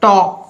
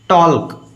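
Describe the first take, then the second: First: The L sound is silent before the K. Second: The L sound is pronounced before the K. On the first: The speaker calls it right. "Real pronunciation हो जाएगा टॉक" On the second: The speaker calls it wrong. "टॉल्क गलत है भाई"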